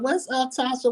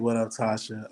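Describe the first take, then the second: First: The voice is high-pitched. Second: The voice is low and deep. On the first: The speaker calls it wrong. "I can't go in there with no high pitch. Like" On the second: The speaker calls it right. "Put on my real deep voice"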